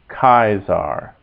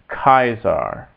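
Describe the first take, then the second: No difference in how they are said.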